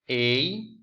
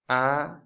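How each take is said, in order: First: The five vowels are named with English letter sounds. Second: The five vowels are named with Spanish vowel sounds. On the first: "I will say on English" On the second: "But on Spanish, it's"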